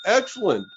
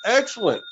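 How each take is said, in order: Both takes have the same delivery.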